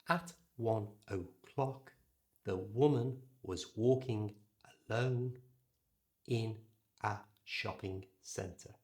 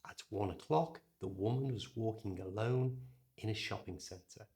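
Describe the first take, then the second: First: The unstressed vowels are full. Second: The unstressed vowels are reduced.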